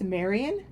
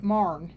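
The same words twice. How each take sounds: First: Said in the usual way. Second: "Marne" squashed into one syllable; local dialect pronunciation. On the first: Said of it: "that's Marion to me". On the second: Retold or imitated. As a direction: say "Marne" the locals' way, dropping the middle vowels of Marion. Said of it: "called it Marne".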